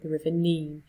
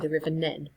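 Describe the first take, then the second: First: The name is said long, like 'Neen'. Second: The name is said short, like 'Nen'. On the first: This is how outsiders say it. "people might from out of Northampton might say the River Nene" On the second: This is how locals say it. "I say the River Nen"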